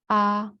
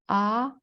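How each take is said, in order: First: It is said in the first tone. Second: It is said in the second tone. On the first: "in order from the first tone"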